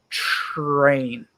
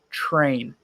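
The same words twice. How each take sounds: First: The word begins with a ch sound. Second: The word begins with a clear tr sound. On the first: The speaker calls it wrong. "don't say train" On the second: The speaker calls it right. "It's train"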